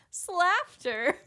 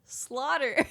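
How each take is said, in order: First: "Slaughter" said as SLAFF-ter, to rhyme with laughter; mispronounced word. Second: Said in the usual way. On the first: Retold or imitated. Lady learned words through reading, mispronouncing as SLAFF-ter. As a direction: imitate a misreading of "Slaughter" as SLAFF-ter, pitched high. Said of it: "pronounces it the way she thought". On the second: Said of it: "up pops the next word".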